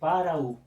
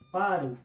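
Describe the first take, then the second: First: The two vowels are said as separate syllables. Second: The two vowels merge into one syllable. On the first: The speaker calls it wrong. "a gente não vai dizer para o" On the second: The speaker calls it right. "aqui aconteceu exatamente a elisão"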